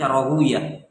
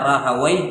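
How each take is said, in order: First: The name ends with the sound 'uyah'. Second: The name ends with the sound 'wai'. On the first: "bisa dibaca Rahuyah" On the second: "bisa dibaca Rahawai"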